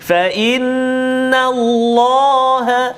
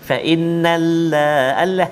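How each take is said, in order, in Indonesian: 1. Huruf L pada Allah berat dan tebal. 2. Huruf L pada Allah ringan dan tipis.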